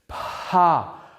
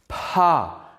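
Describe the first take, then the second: First: The p is released with a puff of breath. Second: The p is released with a puff of breath.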